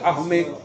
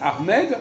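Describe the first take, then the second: First: The final D sound is left silent. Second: The final D sound is pronounced. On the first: This is how French speakers should say it. "nous on doit dire armée" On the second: This is how Arabic speakers say it. "les Arabes disent Ahmed"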